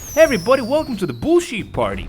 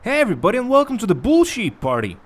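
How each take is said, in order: First: The greeting sounds cheerful and festive. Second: The greeting sounds plain, not festive.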